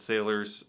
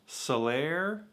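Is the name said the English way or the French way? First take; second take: English; French. First: The name is said like English sailors. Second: The name is said with a French pronunciation. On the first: This is how American drinkers commonly say it. "Everyone I know calls it sailors" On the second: This is how the importers say it. "which apparently is pronounced Salaire"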